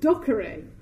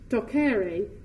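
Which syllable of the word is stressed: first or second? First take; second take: first; second. First: The stress is on the first syllable. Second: The stress is on the second syllable. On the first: The speaker calls it wrong. "wrongly asserted that the correct, correct pronunciation was" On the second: The speaker calls it right. "correctly, with a stress upon the second syllable"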